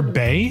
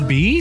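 First: The letter is said with an 'ay' vowel. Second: The letter is said with an 'ee' vowel. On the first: "Did you pronounce that Cesar Bay?" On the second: "Even though it's Caesar B? ... The letter is B"

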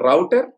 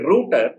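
First: The first vowel sounds like 'ow'. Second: The first vowel sounds like 'oo'. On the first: It is the harmless everyday word. The speaker calls it right. "Good" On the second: It can sound like an offensive word. The speaker calls it wrong. "Especially Britishers అది పెద్ద కస్ word"

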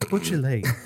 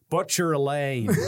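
First: It is said in the speaker's usual accent. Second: It is said in a Canadian accent. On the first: "I kept doing my clearest voice I could" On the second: "So I am practicing my Canadian voice"

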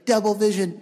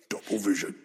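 First: A put-on younger-sounding character voice. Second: A put-on deep, menacing character voice. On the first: "his Anakin voice is stuck around trying to be younger" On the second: "if he'd do the Vader voice, he'd be going like this"

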